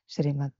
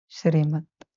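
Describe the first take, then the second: First: It is said hurriedly and restlessly. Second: It is said very calmly and quietly.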